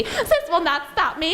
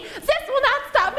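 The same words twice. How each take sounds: First: High-pitched villain protest; acted high defiance; defiant villain. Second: Very high villain shriek; acted frantic, squealing protest; frantic defiant villain. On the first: Villain defiant as she is defeated. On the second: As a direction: push it way up, close to a scream. Villain repeats it, escalating to scream.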